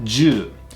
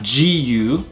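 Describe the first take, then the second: First: It is said as one short syllable, ju. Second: It is split into two syllables, ji and u. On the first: The speaker calls it right. "but ju" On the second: The speaker calls it wrong. "Not jiu"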